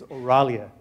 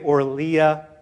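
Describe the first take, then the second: First: The name is said as Oralia. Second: The name is said as Orlia. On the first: The speaker calls it right. "The right way to say it is Oralia" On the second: The speaker calls it wrong. "Some people say Orlia"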